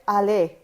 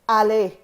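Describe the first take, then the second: The two takes are said the same way.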